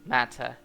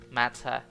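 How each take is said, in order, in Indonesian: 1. Diucapkan dengan aksen Inggris. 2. Diucapkan dengan aksen Inggris.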